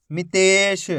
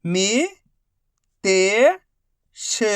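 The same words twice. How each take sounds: First: Said in the usual way. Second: मी-ते-श slowly split; syllable by syllable. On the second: Shown as a demonstration. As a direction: say मितेश one slow syllable at a time. Teacher spells syllables slowly.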